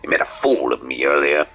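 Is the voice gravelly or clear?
gravelly. The voice is rough and gravelly.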